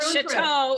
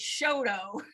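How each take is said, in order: First: The name is pronounced the French way. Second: The name is pronounced the English way. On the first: The speaker calls it wrong. "it's not Chateau" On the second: The speaker calls it right. "it's Choteau"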